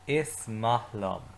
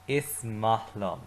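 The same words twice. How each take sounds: First: Slow, clear repeat for the class; slow repeat-after-me. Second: Slow, careful model line; teacher modelling slowly; slow model phrase. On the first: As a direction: lead the class slowly through it. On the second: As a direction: say it slowly for the class to repeat. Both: Shown as a demonstration. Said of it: "say it with me".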